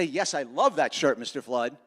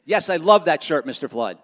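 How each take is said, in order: First: Said in the usual way. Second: The line given with real conviction and a bit more push; really mean it. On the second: Shown as a demonstration. Speaker shows Lucy how to say it sincerely, meaning it. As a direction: sell it like you truly love the shirt. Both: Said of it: "like, you really mean it".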